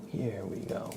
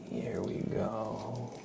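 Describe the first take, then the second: First: Said in the usual way. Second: Slow whisper of "Here we go"; ASMR whisper. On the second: Acted. Starting the name trace for chat, slow whisper. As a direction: breathe "Here we go" slowly with no voice.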